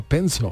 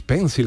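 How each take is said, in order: First: "pencil" said as PEN-so; "pencil" with the final L turned vowel-like; British pronunciation. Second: Said in the usual way. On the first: Shown as a demonstration. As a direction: swallow the end of "pencil" into a vague "-so". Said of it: "ellos dicen algo así como". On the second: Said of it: "que todo el mundo dice pencil".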